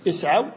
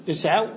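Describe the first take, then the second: No difference in how they are said.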